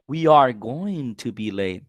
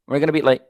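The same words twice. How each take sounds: First: We are going to be late, slow and every word separate; careful textbook version; slow full form. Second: We're gonna be late, quick with gonna run together; relaxed native contraction; casual gonna. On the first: Teacher contrasts full form with the gonna version. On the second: Teacher contrasts the contraction with the full form. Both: Shown as a demonstration. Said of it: "Está contraído por todas partes".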